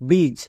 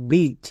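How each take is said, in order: The two takes are said the same way.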